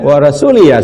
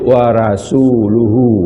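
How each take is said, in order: First: The word ends with an 'ee' vowel sound. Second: The word ends with an 'oo' vowel sound. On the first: God disowns the idolaters and also the Messenger. The speaker calls it wrong. "ya bacaannya salah" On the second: God and the Messenger both disown the idolaters. The speaker calls it right. "yang betul itu wa rasuluhu"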